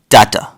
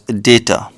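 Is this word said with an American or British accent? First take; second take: British; American. First: It is said in a British accent. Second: It is said in an American accent. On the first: "British people pronounce this as data" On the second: "Americans pronounce this as data"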